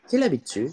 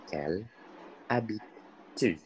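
First: The phrase is said quickly. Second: The phrase is said at a normal pace.

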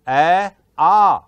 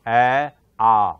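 First: The vowels are made higher, at the soft palate. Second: The vowels are made deep in the throat. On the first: This is the modern Hindi pronunciation. "Hindi में बोलते हैं ए आ" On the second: This is the older Sanskrit pronunciation. "ये कंठ है मेरा, यहां से बोल रहा हूं मैं"

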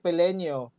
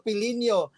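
First: It is said with a Bisaya accent. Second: It is said with a standard Tagalog accent.

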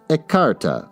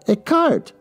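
First: The word ends with an 'ah' vowel. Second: The word ends with a 't' sound. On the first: The speaker calls it right. "Pronounced ecarta" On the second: The speaker calls it wrong. "I said it wrong"

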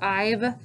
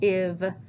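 First: The vowel is said as a long sound. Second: The vowel is said as a short sound. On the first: The speaker calls it wrong. "not say" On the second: The speaker calls it right. "it should be"

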